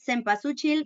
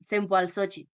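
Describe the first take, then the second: First: The word is said in the everyday pronunciation. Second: The word is said in the Nahuatl pronunciation. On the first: "You can pronounce that cempasúchil" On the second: "in the correct Nahuatl way"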